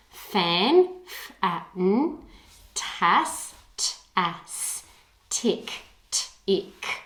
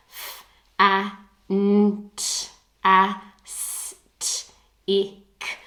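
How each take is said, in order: First: "Fan", "tas", "tick" said whole, then each sounded out; syllable by syllable. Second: "f, a, n, t, a, s, t, ik" spelled one separate sound at a time; sounding out letter by letter. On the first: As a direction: chunk "fantastic" into three beats, then spell each beat. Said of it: "break those words into their syllables and spell each part". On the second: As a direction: break "fantastic" into single letter sounds, each clipped apart. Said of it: "breaking it up into letter sound correspondences". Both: Shown as a demonstration.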